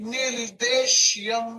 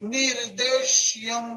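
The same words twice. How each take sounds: No difference in how they are said.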